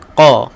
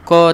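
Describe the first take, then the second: First: The q sound is thick and heavy. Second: The q sound is thin and light. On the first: The speaker calls it right. "kena qa" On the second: The speaker calls it wrong. "qa tak boleh"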